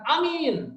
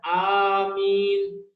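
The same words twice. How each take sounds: First: The first vowel is said short. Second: The first vowel is held long. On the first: The speaker calls it wrong. "bukan amin" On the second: The speaker calls it right. "harus dibaca panjang"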